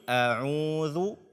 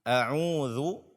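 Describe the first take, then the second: Both takes have the same delivery.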